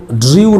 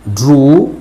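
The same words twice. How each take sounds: First: ड्रीव said as "dree-yoo", with a glide; wrong reading, "dree-yoo". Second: ड्रू as "droo", no y-glide; ड्रू with long oo. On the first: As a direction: misread ड्रीव with ee sliding into oo. (ड्रीव, ई से ऊ की ओर फिसलता गलत उच्चारण) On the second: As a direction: say ड्रू with a pure, drawn oo. (ड्रू, लंबे ऊ के साथ) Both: Shown as a demonstration. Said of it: "इसको ड्रीव नहीं पढ़ेंगे".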